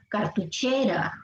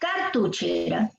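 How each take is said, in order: First: The stress is on the third syllable, che. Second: The stress is on the first syllable, car. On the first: The speaker calls it right. "la pronunciación correcta, que es esta" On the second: The speaker calls it wrong. "Si fuese en car"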